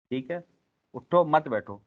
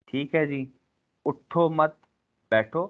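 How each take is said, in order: First: اٹھو stressed with a falling end, then مت بیٹھو run together; "اٹھو مت بیٹھو" with the break after اٹھو, meaning get up, don't sit; pause after اٹھو. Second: اٹھو مت, then a pause, then بیٹھو; "اٹھو مت بیٹھو" split after مت, meaning don't get up. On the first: Teacher shows the same phrase with a shifted pause, stress on اٹھو. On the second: Lesson demo of how a pause changes meaning, pause after مت. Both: Shown as a demonstration. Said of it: "صرف فیٹ کا فرق آیا".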